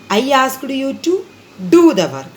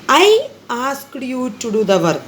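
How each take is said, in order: First: The stress is on the work. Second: The stress is on I.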